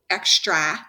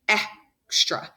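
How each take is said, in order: First: The last vowel is a short A sound. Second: The last vowel is a schwa sound. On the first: "If I had a short A sound" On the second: "What I do hear is the schwa sound"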